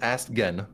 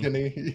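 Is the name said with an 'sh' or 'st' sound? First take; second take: st; sh. First: The name is said with an 'st' sound. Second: The name is said with an 'sh' sound. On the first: The speaker calls it wrong. "I've always pronounced it as Astgen" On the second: The speaker calls it right. "Ashany's how she pronounces it"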